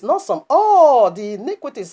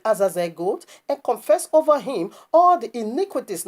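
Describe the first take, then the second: First: All punched loud and high, not some; stress on all. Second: Said in the usual way. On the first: Shown as a demonstration. Preacher insists the sins confessed are all of them, stressing all. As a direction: hammer the word all.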